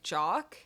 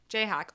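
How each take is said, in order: First: The name is said as one syllable. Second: The name is said as two syllables. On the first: The speaker calls it wrong. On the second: The speaker calls it right.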